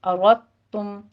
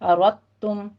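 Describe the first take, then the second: Both takes have the same delivery.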